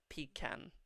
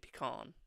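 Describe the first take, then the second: First: It is said in an English accent. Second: It is said in the American way.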